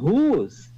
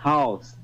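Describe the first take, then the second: First: It is said with a long u vowel. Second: It is said with an au diphthong.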